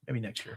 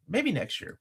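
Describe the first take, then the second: First: Softer muttered repeat; quietly to himself. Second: Said in the usual way. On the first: Shown as a demonstration.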